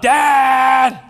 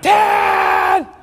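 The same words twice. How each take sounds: First: The call is pitched lower. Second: The call is pitched higher. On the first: This is the first call for attention. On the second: The call is repeated after getting no answer.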